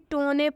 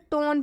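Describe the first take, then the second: First: An extra vowel sound follows the n. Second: The word ends on the n sound. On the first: The speaker calls it wrong. "ना कि टोने पढ़ रहे हैं" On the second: The speaker calls it right. "हम इसे टोन पढ़ रहे हैं"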